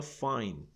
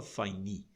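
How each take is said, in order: First: Fine as one syllable, ending on N; fine with silent E. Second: Fine wrongly said as fai-ni; fine with E sounded. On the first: Teacher showing the right way, fine with its E silent. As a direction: say fine without sounding the final E. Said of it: "Você fala fine". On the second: Teacher showing what not to say, fine with final E voiced. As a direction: add an ee sound to the end of fine. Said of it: "você não fala fine". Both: Shown as a demonstration.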